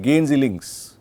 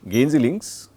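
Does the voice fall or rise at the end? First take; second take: fall; rise. First: The pitch falls at the end. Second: The pitch rises at the end. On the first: It tells the person to go left. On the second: It asks whether the person is going left.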